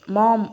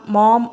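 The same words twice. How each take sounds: First: Shouting for mom. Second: Loud call, voice rising at the end; shouting for mom. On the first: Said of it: "మళ్ళీ అని గట్టిగా అరిచాడు". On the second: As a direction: yell for mom across the house. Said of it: "అని గట్టిగా అరిచాడు". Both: A narrator's reading.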